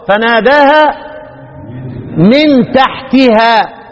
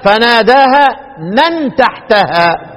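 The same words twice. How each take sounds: First: The m has an i vowel, and taa ends in i. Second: The m has an a vowel, and taa ends in a. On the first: "ومن تحتها اكسر واخفض" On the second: "يبقى قراءة الباقون ضد الكسر"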